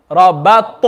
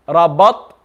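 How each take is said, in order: First: Rabat with an audible bounce after the t; echoing ta. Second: Rabat ending on a dead t; no bounce after the last letter of Rabat; without qalqala. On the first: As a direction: release the final t of Rabat as an echo. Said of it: "Can you hear that echoing sound". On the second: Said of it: "That's without qalqala". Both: Shown as a demonstration.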